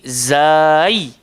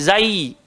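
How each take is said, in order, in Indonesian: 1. Vokalnya dipanjangkan. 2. Vokalnya pendek dan terputus. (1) "Pasal ada alif dekat tengah tu, kita baca panjang" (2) "dia tak bunyi zai"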